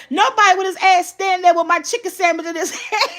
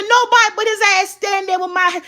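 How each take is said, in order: First: Laughing. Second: Mad retelling. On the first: Repeats the son's line laughing. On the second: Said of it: "who was mad?". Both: Retold or imitated.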